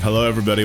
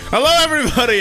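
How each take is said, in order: First: The greeting sounds sad and low in energy. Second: The greeting sounds cheerful and high in energy. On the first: The speaker calls it wrong. "Why do I sound so sad?" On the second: The speaker calls it right. "I gotta cheer up"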